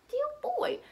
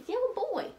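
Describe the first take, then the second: First: Adoring high coo, softer. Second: Tender high coo, softer. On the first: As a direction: lift the coo still higher. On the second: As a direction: coo it like a fond mother. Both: Real, not acted. Cooing at her baby son.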